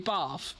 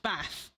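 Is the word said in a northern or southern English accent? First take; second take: southern; northern. First: It is said in a southern English accent. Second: It is said in a northern English accent. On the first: "people southern will say Bath" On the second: "people northern will say Bath"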